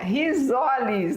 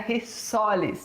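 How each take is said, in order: First: The middle consonant sounds like a z. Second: The middle consonant sounds like an s. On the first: The speaker calls it right. "quando você tem um S entre duas vogais, ele é pronunciado como Z" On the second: The speaker calls it wrong. "não é rissoles... Rissoles teria que ser com dois S's"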